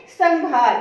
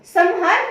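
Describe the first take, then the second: First: संहार with an "ng", like "sang-haar"; "ng" nasal sound. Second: संहार with a full "m", "sam-haar"; wrong pronunciation. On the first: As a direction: sound the dot in संहार as "ng", loudly. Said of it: "अंग की आ रही है". (संहार को ज़ोर से "संङ्हार", अंग की ध्वनि से) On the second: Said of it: "नहीं". (संहार को "सम्हार" की तरह, म की ध्वनि से) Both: Shown as a demonstration.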